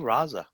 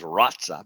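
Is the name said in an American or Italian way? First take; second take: American; Italian. First: The name is said with American pronunciation. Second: The name is said with Italian pronunciation. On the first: This is how an American might say the name. "he might just say Raza" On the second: This is how the name is said in Italy. "because that's the Italian way"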